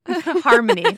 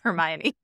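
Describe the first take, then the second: First: It is pronounced like the word harmony. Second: It is pronounced like the name Hermione. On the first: The speaker calls it right. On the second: The speaker calls it wrong. "Now I'm going to say it wrong"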